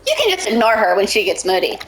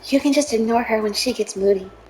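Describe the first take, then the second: First: It is said at a normal, louder volume. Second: It is said more quietly than before.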